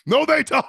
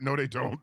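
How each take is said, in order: First: No, they don't shouted, louder and higher; loud denial. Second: Quiet denial. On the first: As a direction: deny it outright, getting louder. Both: Acted.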